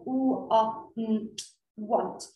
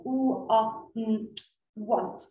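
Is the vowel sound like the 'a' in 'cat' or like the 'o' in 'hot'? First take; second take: hot; hot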